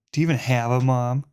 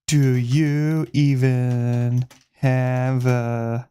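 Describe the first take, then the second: First: Fast snappy taunt; quick taunt. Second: Very slow, dragged out; slow drawl. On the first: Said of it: "that's good". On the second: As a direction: stretch each word out slowly. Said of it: "No, that's so bad". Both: Shown as a demonstration.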